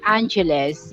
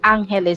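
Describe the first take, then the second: First: The name is said with American pronunciation. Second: The name is said with Filipino pronunciation. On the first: "if you are an American, you pronounce that Angeles" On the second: "you pronounce that in the Filipino words Angeles City"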